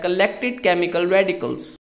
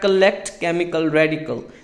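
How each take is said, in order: First: The word endings are clearly sounded. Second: The word endings are dropped. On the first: The speaker calls it right. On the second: The speaker calls it wrong.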